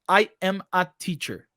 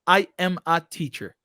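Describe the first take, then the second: First: There is a short pause between I and am. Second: There is a short pause between I and am.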